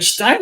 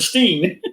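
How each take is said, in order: First: The vowel sounds like the one in 'line'. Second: The vowel sounds like the one in 'seen'. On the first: "Are there Stein or a Steen?" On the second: "Are there Stein or a Steen?"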